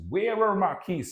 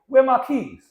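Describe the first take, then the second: First: It has a rhotic American accent with R pronounced. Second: It has a non-rhotic accent with R dropped.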